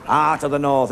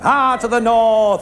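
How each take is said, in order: First: Said in the usual way. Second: Slow, drawn-out mock commentator call; Eddie Waring. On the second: Comedian imitating Eddie Waring's slow commentary call. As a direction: stretch it out like an old rugby commentator. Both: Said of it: "That's Eddie Waring".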